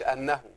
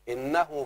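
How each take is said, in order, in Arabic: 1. تبدأ الكلمة بالحركة 'a'. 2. تبدأ الكلمة بالحركة 'i'. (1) "ما تقولش أنه" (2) "تكسر فيها الايه؟ الهمزة وجوبا"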